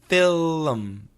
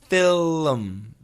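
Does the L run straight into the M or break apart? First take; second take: broken; broken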